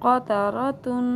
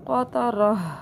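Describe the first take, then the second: First: The word ends with a full 'tun' syllable. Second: The word ends with a soft 'h' sound. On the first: The word is read without pausing. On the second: The word is read when pausing on it.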